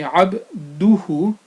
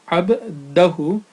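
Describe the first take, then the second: First: The vowel after abd is u. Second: The vowel after abd is a. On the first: The speaker calls it right. "it should be abduhu" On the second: The speaker calls it wrong. "and not abdahu"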